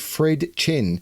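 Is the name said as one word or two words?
two words. The name is said as two separate words.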